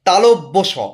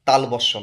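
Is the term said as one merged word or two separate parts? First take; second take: separate; merged. First: The two words are said as separate parts. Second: The two words are merged into one word. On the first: The speaker calls it right. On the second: The speaker calls it wrong. "তালবস্য না।"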